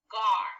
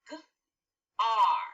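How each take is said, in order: First: Said in the usual way. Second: "g", "r" as separate speech sounds, long pause between; segmented sounds. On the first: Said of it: "The first syllable in the word garden is gar". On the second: Shown as a demonstration. Teacher breaking a syllable into sounds for pupils, segmented. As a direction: sound out "gar" as g, then ar. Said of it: "The sounds are".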